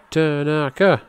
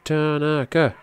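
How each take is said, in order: Both takes have the same delivery.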